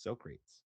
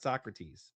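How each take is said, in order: First: "Socrates" as SO-crates; "Socrates" rhyming with "so great's", like wooden crates; joke pronunciation. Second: "Socrates" as SOCK-ruh-teez; "Socrates" the philosopher's way, ending in -teez; usual Greek pronunciation. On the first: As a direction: say "Socrates" in two syllables, so-CRATES. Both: Shown as a demonstration. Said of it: "that is how you pronounce his name".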